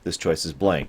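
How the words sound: It is said with slight anger.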